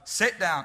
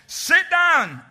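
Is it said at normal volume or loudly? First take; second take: normal; loudly. First: It is said at normal volume. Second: It is said much louder.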